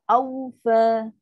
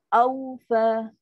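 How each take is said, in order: No difference in how they are said.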